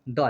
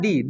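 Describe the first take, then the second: First: The word ends in a short 'uh' vowel. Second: The word ends in a long 'ee' vowel. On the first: The next word begins with a consonant sound. "द कब बोलेंगे जब consonant sound से शुरू हो तब" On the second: The next word begins with a vowel sound. "दी को हम vocal sound बोलते हैं"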